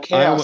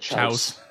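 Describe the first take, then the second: First: It is said with its usual 'kay-oss' sound. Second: It is said as spelled, like 'chouse'. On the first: "chaos is the one I always look at" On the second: "and think chouse"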